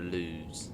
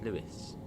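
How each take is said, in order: First: It is said the way many people say it. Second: It is said like the name Lewis. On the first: The speaker calls it wrong. "People call it Lewes" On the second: The speaker calls it right. "No, it's Lewis"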